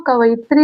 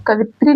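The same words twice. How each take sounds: First: "कवयित्री" as ka-va-yi-tri; correct full form. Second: "कवित्री" as ka-vi-tri, no y glide; short "vi" straight into tri in "कवित्री"; wrong three-syllable form. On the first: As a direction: say "कवयित्री" with the extra va-yi syllables. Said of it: "कवयित्री होगा". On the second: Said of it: "कवित्री नहीं होगा". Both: Shown as a demonstration.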